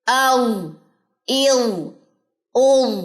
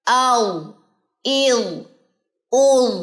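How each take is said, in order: No difference in how they are said.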